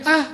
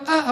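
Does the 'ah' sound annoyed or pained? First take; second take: pained; annoyed. First: A short cry of pain, as when pinched. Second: An annoyed, complaining sigh.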